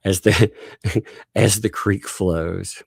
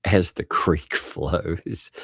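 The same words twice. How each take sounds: First: Slow, dramatic soap title again, with a laugh before it; soap opera title. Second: Slow, dramatic soap opera title read; drawn out like a TV drama announcer. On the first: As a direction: announce it like a melodrama opener. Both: Pretend. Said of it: "great soap opera".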